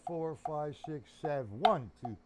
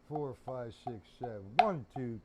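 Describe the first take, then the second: No difference in how they are said.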